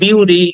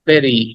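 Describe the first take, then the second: First: The first vowel sounds like 'yoo'. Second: The first vowel sounds like 'eh'. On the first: The speaker calls it wrong. "অনেকে বলি বিউরি" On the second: The speaker calls it right. "কিন্তু উচ্চারণটা হবে বেরি"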